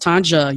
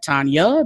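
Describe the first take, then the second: First: The middle consonant is a hard J. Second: The middle consonant is a Y sound. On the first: The speaker calls it right. "It's a hard J" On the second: The speaker calls it wrong. "the J is silent"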